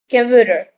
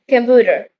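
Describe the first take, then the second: No difference in how they are said.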